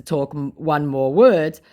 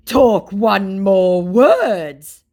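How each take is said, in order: First: Said in the usual way. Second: Loud, very slow, higher threat; mock threat. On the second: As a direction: threaten like a hammed-up scammer. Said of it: "he threatens me".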